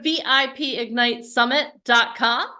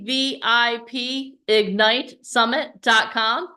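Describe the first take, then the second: First: It is said at normal speed. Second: It is said slowly.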